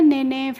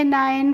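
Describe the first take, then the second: First: It is two syllables, 'ne-ne', with 'eh' vowels. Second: It is one syllable with an 'eye' vowel. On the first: The speaker calls it wrong. "इस तरीके से नहीं पढ़ना है" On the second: The speaker calls it right. "आप पढ़ लेंगे"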